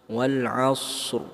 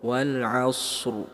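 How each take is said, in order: First: A long s is followed by a short r. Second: A long s is followed by a short r.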